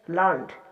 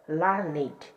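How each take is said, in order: First: The word is said as one syllable. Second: The word is said as two syllables. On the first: It reflects an ordinary person's way of speaking. "Here it pronounced as one syllable" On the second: It is the usual form meaning well educated. "pronounced with two syllables"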